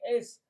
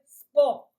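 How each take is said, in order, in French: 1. Une voyelle en plus est ajoutée avant le s. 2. Le mot commence directement par le son s. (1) "On dit es, pas en français" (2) "En français, c'est sport"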